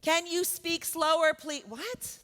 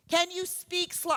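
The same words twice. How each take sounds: First: Higher, slow, raised demand then a clipped please; mock impatient yell. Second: Slow, higher, raised voice of a rude customer; mock impatient yell. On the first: Rude customer snapping at a worker with an accent, slow mock yell. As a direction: talk down to them, every word dragged. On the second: Rude customer yelling at an accented speaker at the deli, slow and raised. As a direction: spell it out slowly like talking down to someone. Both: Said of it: "Yelling at somebody with an accent".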